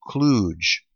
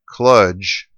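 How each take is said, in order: First: The vowel is long, rhyming with stooge. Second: The vowel is short, rhyming with fudge. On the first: "as in like stooge" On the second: "as in fudge"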